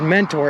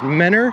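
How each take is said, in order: First: The t sound in the middle is pronounced. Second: The t sound in the middle is dropped. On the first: The speaker calls it wrong. "it's not pronounced Mentor" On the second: The speaker calls it right. "You guys just dropped the T"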